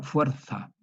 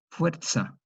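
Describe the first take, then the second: First: "fuerza" with the z said as a lisped th, fwertha; "fuerza" in a Castilian Spanish way, th sound; Spanish pronunciation. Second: "fuerza" with the z said as a clear ts, fertsa; TS affricate. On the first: Teacher voicing how a Spaniard says "fuerza". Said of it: "Un español diría". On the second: Teacher sounding out "fuerza" as fertsa for students. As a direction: stress the ts in "fuerza". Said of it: "Una T S". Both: Shown as a demonstration.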